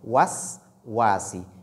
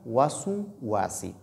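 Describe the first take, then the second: First: No vowel follows the first s. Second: A short u vowel follows the first s. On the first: The speaker calls it right. "disons was wasi" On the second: The speaker calls it wrong. "ne pas dire wasu wasi"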